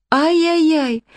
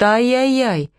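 First: Ай-яй-яй wailed much higher in a falling tune; ай-яй-яй as a high, fully pitiful lament; high wail of pity. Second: Ай-яй-яй sung out a bit higher with a falling tune; lightly fretting ай-яй-яй; ай-яй-яй said by a worried owner with a falling tune; worried ay-yay-yay. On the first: Distressed owner lamenting. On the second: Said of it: "Голос Иры звенел от волнения". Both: A narrator's reading.

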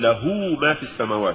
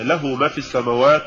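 First: Quick faulty له ما; mispronounced recitation. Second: Said in the usual way. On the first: Shown as a demonstration. Interviewer quotes readers to the doctor, faulty له ما. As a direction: say له ما as some readers misread it. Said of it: "نفس الموضوع". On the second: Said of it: "يقول".

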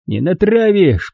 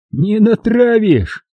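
First: Said in the usual way. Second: Hysterical laugh. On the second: A narrator's reading. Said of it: "Истерично засмеялся Макс".

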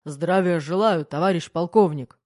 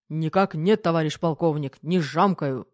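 First: Barked greeting. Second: Loud, crisp military answer; crisp reply. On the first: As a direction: bark it like on parade. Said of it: "гаркнул майор". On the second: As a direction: snap it out like a drill. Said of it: "чётко отвечал Кир". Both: A narrator's reading.

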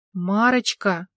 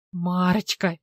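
First: Helpless, at a loss, calling her name; a lost husband's helpless call; bewildered call; bewildered plea. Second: Mocking echo of his helpless call; sneering mimicry of the call. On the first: Acted. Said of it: "растерянно развёл руками". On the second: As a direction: parrot him to make fun of him. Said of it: "передразнила Алла".

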